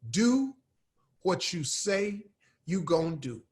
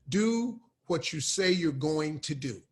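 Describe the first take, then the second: First: It is said casually as 'you gonna'. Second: It is said fully as 'you're going to'. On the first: This is how the speaker really talks. "That ain't how I talk" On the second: This is the formally correct way. "the proper way to say that"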